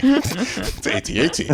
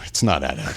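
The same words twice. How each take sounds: First: "A T A T" spelled out slowly and higher, letter by letter. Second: "at at" as one word, low and soft, teasing the wrong way; mock correction. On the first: Retold or imitated. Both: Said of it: "I did my whole, like".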